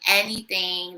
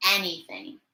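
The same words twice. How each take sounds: First: Anything stressed as a correction; emphatic restatement. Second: Said in the usual way. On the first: Real, not acted. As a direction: lean into anything to insist. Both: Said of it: "Anybody, anything".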